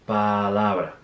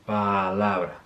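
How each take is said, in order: No difference in how they are said.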